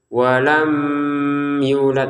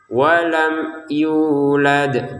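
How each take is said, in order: First: The m is held with a nasal hum. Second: The m is short and clear, without nasal hum. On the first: The speaker calls it wrong. "jangan dibaca dengan dengan dengungan ataupun samar" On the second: The speaker calls it right. "ini juga harus kita baca jelas"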